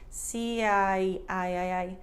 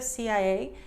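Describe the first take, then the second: First: The I is fully finished before the A. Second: The I is cut short into the A. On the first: The speaker calls it right. "you want to make sure you finish the I before you get to A" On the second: The speaker calls it wrong. "instead of C I A"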